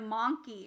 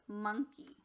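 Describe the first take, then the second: First: The first vowel is a full 'ah' sound. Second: The first vowel is a reduced 'uh' sound. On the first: The speaker calls it wrong. "instead of monkey" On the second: The speaker calls it right. "it's monkey"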